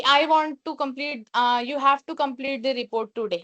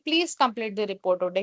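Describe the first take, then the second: First: A mild, demonstrated bossy order, slow; understated harsh boss demand. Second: Gentle professional request from a manager; polite tone. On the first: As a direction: play the manager half-heartedly commanding. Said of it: "harsh tone हो जाएगी". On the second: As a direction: ask the team kindly and respectfully. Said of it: "तो वो एक professional, एक अच्छी tone". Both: Shown as a demonstration.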